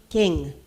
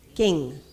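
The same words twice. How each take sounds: First: The k is said with little breath. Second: The same.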